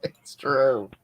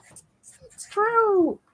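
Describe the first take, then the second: First: Said in the usual way. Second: Very high, drawn-out squeak; playful falsetto. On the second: Pretend. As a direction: echo it in a silly falsetto. Jokingly repeats it in high voice.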